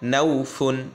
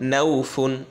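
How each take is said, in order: No difference in how they are said.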